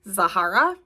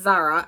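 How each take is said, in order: First: The name is said with three syllables. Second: The name is said with two syllables. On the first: The speaker calls it wrong. "I kept calling her Zahara" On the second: The speaker calls it right. "It's Zara"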